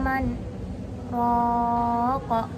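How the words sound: A brief break separates man from raq. "Tempat sakta"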